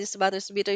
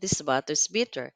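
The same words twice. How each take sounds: First: It is said at a very fast pace. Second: It is said at a slow pace.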